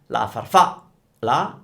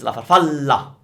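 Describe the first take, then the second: First: A pause splits the word before a light L. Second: The L is held long and strong, without gap. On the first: The speaker calls it wrong. "it's not la farfa, la" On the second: The speaker calls it right. "it's la farfalla. You want to have the double l"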